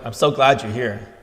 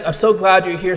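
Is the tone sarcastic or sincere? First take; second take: sarcastic; sincere. First: It is said in a sarcastic, insincere tone. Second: It is said in a sincere, pleased tone. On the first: The speaker wishes the listener were not present. "I can say that same sentence with sarcasm" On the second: The speaker is happy the listener is present. "expressing some emotion, some pleasure at the fact that you are present"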